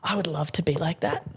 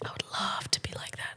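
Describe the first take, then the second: First: Said in the usual way. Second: Whispered aside; soft unvoiced repeat. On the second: Shown as a demonstration. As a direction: breathe it as a secret wish.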